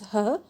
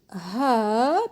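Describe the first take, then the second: First: The word has a weak schwa vowel. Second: The word has a full, strong vowel.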